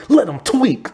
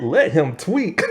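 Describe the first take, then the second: First: Higher, offhand, let it slide; lazy stoner line. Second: Can't believe the line; incredulous repeat. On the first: Zeke brushing off his friend's fear, lazy and casual. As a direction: voice the stoner shrugging it off. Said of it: "Zeke is all like". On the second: The viewer repeating the dialogue, laughing in disbelief. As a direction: echo it back laughing, rising. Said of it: "I'm like". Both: Retold or imitated.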